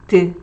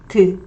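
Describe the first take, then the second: First: The d sound is light and weakly voiced. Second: The same.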